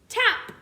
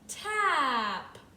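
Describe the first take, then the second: First: The word is said quickly. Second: The word is stretched out slowly.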